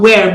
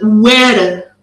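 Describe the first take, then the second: First: It is pronounced as in modern English. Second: It is pronounced following its spelling. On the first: This is how it is said today. "It's not where" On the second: This is how it was said long ago. "but where"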